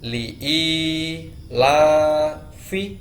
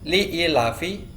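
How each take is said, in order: First: The long vowel is held for two counts. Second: The long vowel is cut short to one count. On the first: The speaker calls it right. "alifnya harus dua kali lebih panjang dari huruf yang lain" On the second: The speaker calls it wrong.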